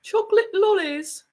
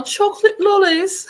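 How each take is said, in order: First: Chocolate lollies lightly in a higher British lilt; mock British accent. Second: Chocolate lollies high and loud in a hammed-up British accent; big British accent. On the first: Explaining word choice to David in a light British accent. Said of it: "you use different words". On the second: Hamming it up for David in a British accent. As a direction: belt out chocolate lollies like a posh Brit.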